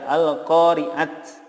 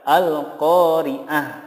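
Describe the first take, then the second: First: The word ends with a t sound. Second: The word ends with an h sound. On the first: The speaker calls it wrong. "tidak diboleh dibaca al-qari'at ya" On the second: The speaker calls it right. "yang benar adalah al-qari'ah"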